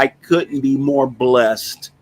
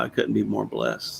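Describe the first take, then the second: First: Drawn-out, heartfelt "I couldn't be more blessed"; slow and earnest. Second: Softer, lower "I couldn't be more blessed"; soft and quiet. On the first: Grateful remark about neighbors. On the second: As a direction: let "I couldn't be more blessed" fade out softly. Repeats gratitude, trailing off. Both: Real, not acted.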